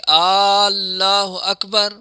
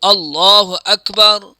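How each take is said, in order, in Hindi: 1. Allah का पहला स्वर लंबा खींचा गया है। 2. किसी भी स्वर को उसकी सामान्य लंबाई से ज़्यादा नहीं खींचा गया है। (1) "पहले जो पढ़ रहा है वो अल्लाह कर रहा है, अलिफ को इतना बढ़ा रहा है" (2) "सही जो लफ्ज़ है"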